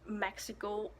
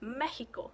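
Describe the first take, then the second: First: It is said with an English pronunciation. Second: It is said with a Spanish pronunciation.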